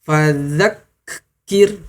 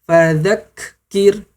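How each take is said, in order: No difference in how they are said.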